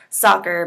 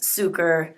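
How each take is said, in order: First: The first vowel is an open 'ah' sound. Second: The first vowel is an 'oo' sound. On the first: The speaker calls it right. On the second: The speaker calls it wrong.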